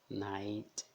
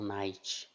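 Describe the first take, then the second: First: The final T is a soft plain t. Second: The final T hisses like a ch sound. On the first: The speaker calls it right. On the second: The speaker calls it wrong.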